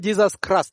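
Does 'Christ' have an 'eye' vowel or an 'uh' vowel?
uh. Christ is said with an 'uh' vowel, like crust. "People in Western Kenya ... they say"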